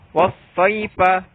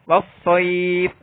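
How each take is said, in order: First: The word ends with a vowel sound. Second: The word ends on f with a lengthened vowel.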